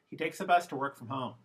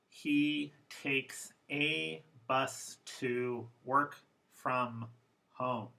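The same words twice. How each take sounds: First: The unstressed vowels are reduced to schwa. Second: The unstressed vowels are said fully and clearly.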